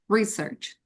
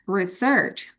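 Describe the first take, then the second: First: The stress is on the first syllable. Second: The stress is on the second syllable. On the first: It is a noun. "I put the stress on the first syllable" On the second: It is a verb. "But when it comes to verb meneliti"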